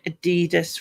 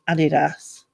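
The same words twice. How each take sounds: First: The word has an American pronunciation. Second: The word has a British pronunciation. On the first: "they would also say Adidas" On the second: "rather than Adidas"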